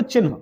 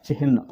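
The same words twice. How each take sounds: First: चिन्ह said "chin-ha", n first; common misreading. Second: चिन्ह said "chih-na"; h before n. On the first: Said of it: "आप पढ़ते हो". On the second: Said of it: "आधा है होता है चिन्ह". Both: Shown as a demonstration.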